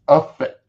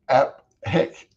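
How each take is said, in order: First: The middle is a single f sound. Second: The middle is a p followed by an h. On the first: The speaker calls it right. "but it's effect" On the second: The speaker calls it wrong. "I was saying app heck"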